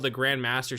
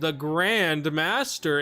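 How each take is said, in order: First: The words are said at normal length. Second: The words are stretched out and drawn long. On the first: "instead of being like" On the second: "she makes it sound longer"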